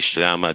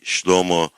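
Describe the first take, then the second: First: The word has 'ah' vowels, ending in 'ah'. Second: The word has 'oh' vowels, ending in 'oh'. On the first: This is how the speaker's own community says it. "we say Shlama" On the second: This is how the Suryoyo-speaking community says it. "they say Shlomo"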